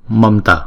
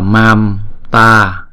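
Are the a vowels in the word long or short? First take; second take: short; long. First: Both a vowels are short and quick. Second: Both a vowels are long and drawn out. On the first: The speaker calls it right. "Hai chữ A này đều không có dấu gạch ngang trên đầu, cho nên đọc nhanh là" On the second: The speaker calls it wrong. "Chứ chúng ta không đọc là mam ta... thì thành thử ra là chữ A dài rồi"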